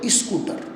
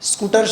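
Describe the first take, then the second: First: The word begins with an 'ee' vowel before 'sk'. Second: The word begins directly with the 'sk' sound. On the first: The speaker calls it wrong. "ઓલા મેરઠ દિલ્હી બાજુમાં" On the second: The speaker calls it right. "સ્કૂટર શબ્દ નહીં બોલે"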